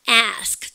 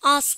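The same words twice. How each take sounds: First: The vowel is spread wide, American style. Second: The vowel is open and long, British style. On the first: "미국에는 어떻게 합니까?" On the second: "영국 애들은"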